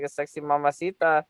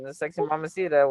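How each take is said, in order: First: "mamacita" with Spanish vowels, ending open "-tɑ"; Spanish-style pronunciation. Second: "mamacita" with flat American vowels, ending "-tə". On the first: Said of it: "When I say it like a sexy mamacita". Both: Shown as a demonstration.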